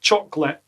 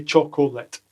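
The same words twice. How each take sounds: First: "chocolate" squeezed to two syllables, choc-lit; English pronunciation. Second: "chocolate" in three full syllables, choc-o-let; Scottish pronunciation. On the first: Teacher mocking how the English say it, "chocolate" as two-syllable choc-lit. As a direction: clip out the middle vowel of "chocolate". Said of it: "like you do in English". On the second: Teacher showing proper Scottish, "chocolate" as slow choc-o-let. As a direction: draw out "chocolate" with a full middle O. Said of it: "when you speak properly, like what Scottish people do". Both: Shown as a demonstration.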